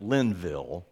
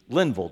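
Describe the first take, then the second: First: The name is said the way outsiders say it. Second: The name is said the way locals say it. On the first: The speaker calls it wrong. "if you're not from Tennessee, you would probably pronounce it Linville, but that would be incorrect" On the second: The speaker calls it right. "It's Linville, Tennessee"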